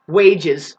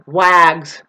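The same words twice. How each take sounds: First: Said in the usual way. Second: "Wags" as one loud short-a syllable; deliberate mispronunciation. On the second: Shown as a demonstration. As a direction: misread wages as "Wags", rhyming with bags. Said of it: "That's just not even a word".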